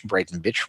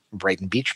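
First: Brighton bitch, Beach squashed to a short i; mock-sneering twist on Brighton bitch, said quietly; punning mispronunciation. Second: Said in the usual way. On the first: Shown as a demonstration. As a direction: Brighton bitch dropped softly as a pun. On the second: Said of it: "Brighton bitch".

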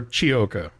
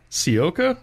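First: "Chiocca" starting like "cheese", chee-OH-ka; CH pronunciation. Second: "Ciocca" starting with an S sound, see-OH-ka; soft C pronunciation. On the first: Host trying a second guess at the dealer name, "Chiocca" as chee-OH-ka. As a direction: say "Chiocca" with an Italian CH sound. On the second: Host trying out an unfamiliar dealer name, "Ciocca" as see-OH-ka. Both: Shown as a demonstration. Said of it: "not real sure how it's pronounced".

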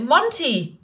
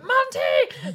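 First: Calling the cat's name. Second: Name yelled way up high in exasperation; exasperated shout. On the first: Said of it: "I was like". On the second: Owner yelling at her cat from the stairs, high exasperated shout. Cat tipping fountain again. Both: Retold or imitated.

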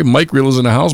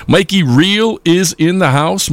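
First: Said in the usual way. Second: Calls out Mikey instead of Mike, drawn out; slip of the name. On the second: Real, not acted. Host greeting a listener by the wrong name, drawn out. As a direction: says the name wrong, upbeat and slow. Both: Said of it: "I'm sorry".

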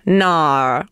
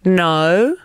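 First: Low Australian "no", drawn out as "nar"; Australian accent. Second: British "No" with a rounded, rising vowel; British accent. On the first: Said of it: "And here's Australian". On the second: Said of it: "Here's British". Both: Shown as a demonstration.

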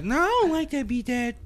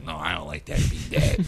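First: Put-on much higher little-boy whine; high kid voice. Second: Put-on lower, flat little-boy verdict; a hint of a bored kid; lightly voiced son. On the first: Son rejecting dad's beat, high whiny kid voice. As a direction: squeak it like a small child. Voicing his son again. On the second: Son telling dad his beat is bad, low flat kid voice.

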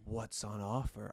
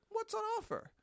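First: Low, slow, insinuating question; slow come-on in a lowered pitch; suggestive tone. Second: Very high, casual question; light high-pitched polite inquiry; innocent query. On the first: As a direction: draw out a knowing innuendo. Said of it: "I didn't say it in the tone of voice like". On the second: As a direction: pitch it right up, free of innuendo. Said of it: "I said". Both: Shown as a demonstration.

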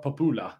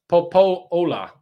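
First: Popula with an "oo" in the middle, "po-POO-la"; mistaken pronunciation. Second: Popola drawn out with a long stressed "oh" in the middle; correct pronunciation. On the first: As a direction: say Popula with "oo" in place of the long "oh". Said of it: "not Popula". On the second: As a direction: say Popola slowly, "po-POH-la", stretching the middle. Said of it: "it's pronounced". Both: Shown as a demonstration.

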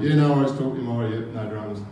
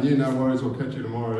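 First: Quick, clipped-off brush-off while locking up; hurried goodbye. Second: Said in the usual way. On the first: Retold or imitated. Locking the door on the man, a fast nervous brush-off. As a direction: rush the words out to get rid of him. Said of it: "And I'm like". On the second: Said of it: "I'm saying".

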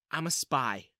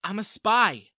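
First: Said in the usual way. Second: "spy" pushed higher and louder; insistent, raised voice on "spy"; emphatic repeat. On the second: A narrator's reading. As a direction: repeat it firmly, hitting "spy". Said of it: "she said again".

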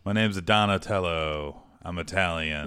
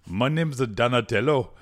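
First: Mock Italian accent. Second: Loud, higher, badly faked Jamaican accent; botched Jamaican accent. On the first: Co-host suggests Italian for Donatello, mock Italian accent. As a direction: stretch it into a hammy Italian accent. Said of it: "It could be an Italian accent". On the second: Host improvises Donatello's accent, failed Jamaican attempt. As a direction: attempt a Jamaican lilt and miss, loudly. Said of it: "I was trying to do a Jamaican accent".

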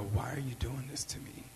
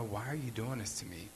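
First: Whispered plea, barely audible; very soft voice. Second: Hushed, gentle plea; very soft voice. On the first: Retold woman whispering softly to her attacker. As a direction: breathe it out gently, no force. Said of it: "In a very soft voice". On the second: Retold woman pleading quietly with her attacker. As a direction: say it softly, no yelling. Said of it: "Not yelling, not screaming". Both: Retold or imitated.

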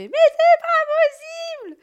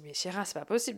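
First: Very high, very loud scream of fury; full-throated screamed frustration; furious scream. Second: Softer, deflated self-talk; soft resigned inner voice; quiet to herself. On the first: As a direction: explode at the soaked parquet. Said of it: "Et là, je fais". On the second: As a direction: murmur it to yourself after the outburst. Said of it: "Je me dis". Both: Retold or imitated.

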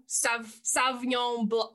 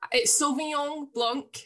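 First: "Sauvignon Blanc" starting with a short "sav"; imitated mispronunciation. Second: "Sauvignon Blanc" slowly, the French way; French pronunciation. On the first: Imitating people who get French wrong, clumsy mispronunciation. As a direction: botch "Sauvignon Blanc" as "Sav-nyon", haltingly. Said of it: "they don't even say Ignon". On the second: Shown as a demonstration. Correcting how people order wine, careful French pronunciation. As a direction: give "Sauvignon Blanc" its nasal French endings. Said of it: "But they say".

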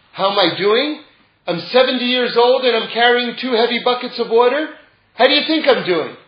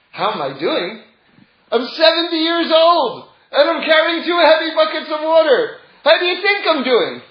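First: Loud bitter complaint, pitch up; angry old man. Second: Beam it out with joy despite the load; happy old man. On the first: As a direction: snap it out like a grumpy old water carrier. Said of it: "The man says with an angry voice". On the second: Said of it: "this time with a happy voice". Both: Retold or imitated.

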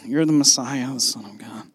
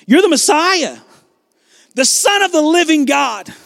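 First: Low, very soft murmur; mock timid whisper. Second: High, ringing proclamation; with authority. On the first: Shown as a demonstration. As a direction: say it as if afraid to be heard. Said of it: "Peter didn't just whisper this". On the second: Acted. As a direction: declare it so everybody knows your answer. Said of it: "he says it with authority".

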